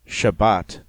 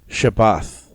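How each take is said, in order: First: The last consonant is a t sound. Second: The last consonant is an unvoiced th sound.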